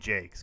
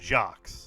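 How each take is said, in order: First: The name rhymes with cakes. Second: The name does not rhyme with cakes. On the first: This is how the author actually says it. The speaker calls it right. "It's actually Brian Jakes because it rhymes with cakes" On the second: This is the pronunciation the spelling suggests. The speaker calls it wrong. "what we would assume would be pronounced"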